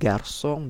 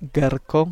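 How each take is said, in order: First: The c is said with an s sound. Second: The c is said with a k sound. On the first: The word is read with its cedilla. The speaker calls it right. "ditambah menggunakan aksen sedi" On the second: The word is read as if it had no cedilla. The speaker calls it wrong. "kalau misal tidak ada aksen sedinya, kita ucapkannya"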